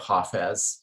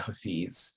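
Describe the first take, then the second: First: The name is pronounced the Farsi way. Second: The name is pronounced the Urdu way. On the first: "Farsi, one would say Hafez" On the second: "in Urdu, ... one would say Hafiz"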